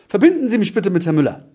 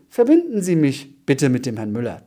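First: The voice falls at the end. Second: The voice rises at the end. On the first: It sounds like a command. The speaker calls it right. "in einem Befehlston sprichst, das heißt, du gehst mit deiner Stimme nach unten" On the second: It sounds like a question. The speaker calls it wrong. "Wenn die Stimme nach oben geht"

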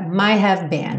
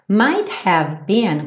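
First: The phrase is said quickly and run together. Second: The phrase is said slowly and fully.

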